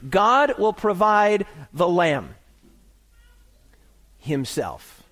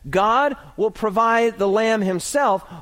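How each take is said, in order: First: There is a pause before "the lamb himself." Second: It is said without a pause before "the lamb."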